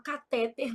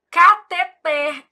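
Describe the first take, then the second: First: "catéter" stressed on the middle syllable; mispronounced stress. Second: "Cateter" slow and loud, ca-te-TER; stress on last syllable. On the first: Retold or imitated. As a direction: say "catéter" as ca-TÉ-ter. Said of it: "daquelas médicas que fala catéter". ("catéter" com a tônica errada no TÉ) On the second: Shown as a demonstration. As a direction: spell out "Cateter" as an oxytone. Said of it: "médicas que fala catéter". ("Cateter" bem pausado, tônica no TER)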